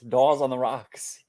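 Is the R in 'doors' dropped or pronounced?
dropped. The R in doors is dropped entirely. "they don't say the R"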